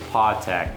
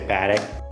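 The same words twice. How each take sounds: First: The first vowel has the European sound. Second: The first vowel has the American sound. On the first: The speaker calls it right. "The right way to say it is Patek. Because Swiss French, or even in German, you would say the A like an A" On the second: The speaker calls it wrong. "I guess us Americans, we see A as A, so that's why people say Patek"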